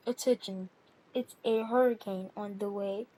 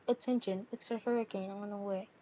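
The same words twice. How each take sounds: First: Low, measured hurricane warning; mock announcement. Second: Low, softer hurricane warning; mock announcement. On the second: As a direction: announce it low, with less force. Repeats the mock warning, more softly.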